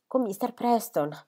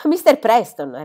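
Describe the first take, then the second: First: Said in the usual way. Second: Sbotta incredulo, più forte e più acuto. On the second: A narrator's reading. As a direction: ripetilo come uno schiaffo inatteso. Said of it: "ripete lui". (padre che ripete il nome sbalordito, forte)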